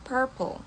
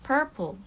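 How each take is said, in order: Both takes have the same delivery.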